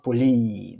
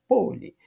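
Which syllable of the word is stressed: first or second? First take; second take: second; first. First: The stress is on the second syllable. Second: The stress is on the first syllable. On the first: The speaker calls it wrong. "eu não falo poli" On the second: The speaker calls it right. "Não, é poli"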